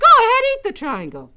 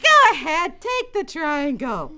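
First: High, loud, quick order; raised-voice motherly command; insistent mom. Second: High, slow, drawn-out urging; lightly acted motherly insistence; coaxing mom. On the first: Acted. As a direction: urge the child briskly. Mother insists a second time. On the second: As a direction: coax the reluctant child slowly. Mother urges sister.

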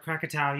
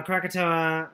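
First: Krakatau ending in "tow", rhyming with cow; original-name Krakatau, no "oa" ending; local pronunciation. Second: Krakatoa ending in "toe-uh"; anglicized Krakatoa, with an extra final syllable; anglicized pronunciation. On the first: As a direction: say Krakatau with a final "ow" sound. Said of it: "the actual name is Krakatau". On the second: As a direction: say Krakatoa the English way, "toe-uh" at the end. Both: Shown as a demonstration.

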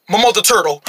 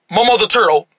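Both takes have the same delivery.

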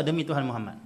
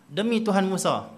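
First: Said in the usual way. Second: Mild annoyance. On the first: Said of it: "Kau, engkau tak kata". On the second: Retold or imitated. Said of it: "Bila mana kamu kalau marah".

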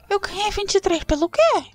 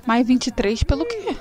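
First: Incredulous. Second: Said in the usual way. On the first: Real, not acted. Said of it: "Que vinte e três foi esse, gente?".

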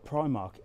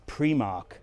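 First: Said in the usual way. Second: Primark said as "PREE-mark"; alternative pronunciation. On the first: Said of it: "Or as Pat tells me". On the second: Shown as a demonstration. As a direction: stress a long "ee" at the start of Primark. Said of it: "Or as Pat tells me, it's".

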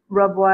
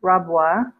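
First: Rabwa read with a short uh vowel, RUB-wa; Rabwa as misread. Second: Rabwa with an open ah vowel, RAHB-wa; correct Rabwa. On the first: Reading a viewer's comment aloud, Rabwa said RUB-wa. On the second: Correcting a viewer's spelling, Rabwa said RAHB-wa. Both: Shown as a demonstration. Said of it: "I think you mean Rabwa".

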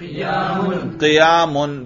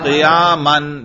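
First: Very slow, chanted क़ियामुन with -un ending; raf ending demo. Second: Drawn-out, chanted क़ियामन with -an ending; nasb ending demo. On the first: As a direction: say क़ियामुन very slowly, landing on -un. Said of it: "रफा पढ़ के दिखाओ". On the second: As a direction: stretch क़ियामन out, ending clearly on -an. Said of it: "करके दिखाओ". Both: Shown as a demonstration.

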